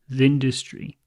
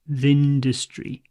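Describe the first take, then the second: First: 'The' is weak and runs into 'industry'. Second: The same.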